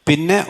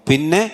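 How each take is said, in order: The two takes are said the same way.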